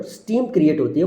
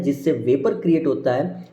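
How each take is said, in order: First: steam stressed with a rise; corrected word. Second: Said in the usual way. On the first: Real, not acted. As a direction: lean on steam to correct yourself. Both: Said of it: "sorry, not vapour".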